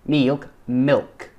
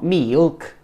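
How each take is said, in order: First: "milk" with a short, crisp I. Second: "mealk" for "milk", with a long EE; wrong milk demo. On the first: Shown as a demonstration. Teacher correcting a learner's vowel, "milk" with a short I. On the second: Retold or imitated. Teacher mimicking a learner's slip, "milk" as higher-pitched "mealk". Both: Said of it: "Not mealk".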